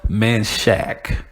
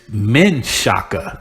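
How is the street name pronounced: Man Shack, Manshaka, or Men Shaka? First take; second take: Man Shack; Men Shaka. First: It has two syllables, ending in 'shack'. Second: It has three syllables, starting with 'men'. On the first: This is the easy local way taught growing up. "that's what I was taught growing up" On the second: This is the changed current name. "now it's Men Shaka"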